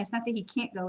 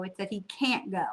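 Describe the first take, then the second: First: It's not THAT he can't go, with the weight on "that"; "that" carries the stress. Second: It's that he CAN'T go, with "can't" hit and falling; "can't" carries the stress. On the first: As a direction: lean on "that" and keep "can't" light. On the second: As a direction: punch "can't" and let the line drop after it. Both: Shown as a demonstration. Contrasting stress on two words.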